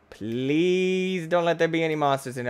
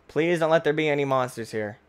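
First: "Please" stretched long as a plea. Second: Said in the usual way. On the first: Real, not acted. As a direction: hold the vowel of "Please", then carry on. Repeated plea, first word drawn out.

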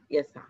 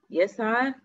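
First: يسعى cut to a short final a; shortened final vowel. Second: يسعى with a long final aa, rising higher; full final vowel. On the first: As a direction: trim the aa of يسعى to a brief fatha. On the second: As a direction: hold the aa of يسعى on a rise. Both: Shown as a demonstration. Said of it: "إحنا حذفنا حرف العلة".

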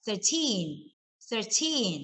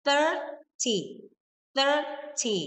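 First: Put-on "thirteen" with a long, stressed teen; "thirteen", light thir and strong teen. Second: "thirty" with THIR high and drawn out; higher-pitched "thirty", weight on the front; stress on THIR. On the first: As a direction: hit the second syllable of "thirteen". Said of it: "stress ที่พยางค์หลังที่คำว่า teen". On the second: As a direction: hit the first syllable of "thirty". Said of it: "straight ที่พยางค์หน้า". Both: Shown as a demonstration.

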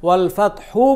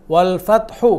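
No difference in how they are said.

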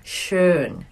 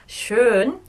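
First: Schön with lips pushed together, squeezed rounded O. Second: Schön with squeezed rounded O and a questioning rise; Schön again, rounded lips, asking them to try. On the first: Teacher showing learners the rounded vowel, lips tight. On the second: Teacher checking students copy the vowel, rising. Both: Shown as a demonstration. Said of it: "put your lips together and squeeze the O".

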